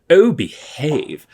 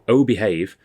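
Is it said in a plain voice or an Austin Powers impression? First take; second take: Austin Powers; plain voice. First: It is said in an Austin Powers impression. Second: It is said in a plain, normal voice.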